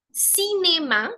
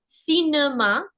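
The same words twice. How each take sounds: First: Cinéma drawn out as "see-nay-ma"; slow, higher model word, cinéma as /sinema/; accented é sound. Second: Cinéma wrongly said as "see-nuh-ma"; missing-accent sound. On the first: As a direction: clear "ay" in the middle of cinéma. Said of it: "which gives me the sound A". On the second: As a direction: schwa in the middle of cinéma. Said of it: "how the sounds would be if I did not have the accents". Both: Shown as a demonstration.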